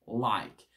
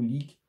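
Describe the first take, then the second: First: The vowel is an open 'eye' sound. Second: The vowel is a closed 'ee' sound. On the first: The speaker calls it right. "dans like, on va bien l'ouvrir" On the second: The speaker calls it wrong. "Pas like ou leak"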